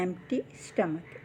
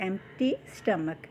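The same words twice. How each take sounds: First: Empty stomach slow and soft, the p almost silent; p barely sounded. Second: Empty stomach very slow, the p in Empty almost silent; p barely sounded. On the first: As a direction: ease through Empty stomach, drop the p sound. (పి చిన్నగా, నెమ్మదిగా ఎంప్టీ stomach) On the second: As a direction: stretch out Empty stomach, say the p very lightly. (ఎంప్టీలో పి చాలా చిన్నగా పలకండి) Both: Shown as a demonstration. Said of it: "పి అనేది చాలా చిన్నదిగా పలుకుతుందండి".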